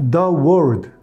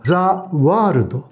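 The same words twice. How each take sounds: First: It is said with an English-like pronunciation. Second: It is said with a Japanese-style pronunciation.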